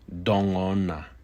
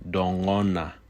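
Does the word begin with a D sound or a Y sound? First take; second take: D sound; D sound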